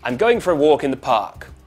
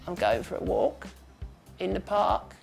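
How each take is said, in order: First: A loud, twangy voice with lively rising and falling pitch. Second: A quiet, breathy, creaky voice with flatter pitch. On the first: This is the speaker's natural voice. "in my natural accent, ... So that's loud, with a British accent, going up and down a lot" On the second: The voice is disguised, like a much older man. "now we try switching all those to the opposite"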